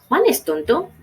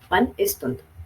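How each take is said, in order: First: It is a question with a rising end. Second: It is a statement with a falling end.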